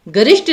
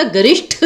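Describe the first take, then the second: First: गरिष्ठ said as "garisht"; unaspirated ending. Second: गरिष्ठ ending in breathy "shth"; aspirated ending. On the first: Teacher showing the misspelling, गरिष्ठ with final ट. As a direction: end गरिष्ठ on plain ट. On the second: Teacher correcting students, गरिष्ठ with aspirated ठ. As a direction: end गरिष्ठ on ठ with a puff. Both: Shown as a demonstration. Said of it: "गरिष्ठ होता है, ठ".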